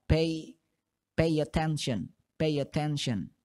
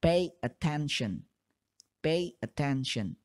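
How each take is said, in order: First: Fast. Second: Slow and separated. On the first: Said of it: "kalian ucapkan dengan cepat". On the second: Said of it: "lambat atau secara terpisah". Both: Shown as a demonstration.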